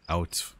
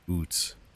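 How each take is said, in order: First: The vowel is an 'ow' sound, like 'cow'. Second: The vowel is an 'oo' sound, like 'boot'. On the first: This is how the speaker normally says it. The speaker calls it right. "I just said proper way out" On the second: This is a stereotyped way of saying it. The speaker calls it wrong. "We don't we don't say oot"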